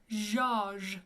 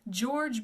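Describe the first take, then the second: First: The name is said with French pronunciation. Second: The name is said with English pronunciation.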